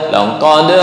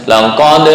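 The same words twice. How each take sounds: The two takes are said the same way.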